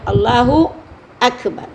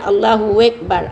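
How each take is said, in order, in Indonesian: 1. Tidak ada bunyi w di antara Allahu dan Akbar. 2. Bunyi w menghubungkan Allahu dengan Akbar. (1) "Tak ada waw ya"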